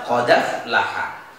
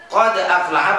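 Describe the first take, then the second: First: Low, slow "Qad aflaha" as qa-daf-laha; joined recitation. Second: Said in the usual way. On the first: Shown as a demonstration. Teacher answers how to read it, low, slow and joined. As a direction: link d into a of "aflaha", no glottal stop.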